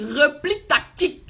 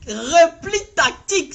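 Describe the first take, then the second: First: Said in the usual way. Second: "Repli tactique" slow and louder, each syllable pressed; emphatic. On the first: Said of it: "repeated for emphasis". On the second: Shown as a demonstration. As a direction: spell out the key term with weight. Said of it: "C'est ça le mot". ("Repli tactique" martelé, lent et plus fort)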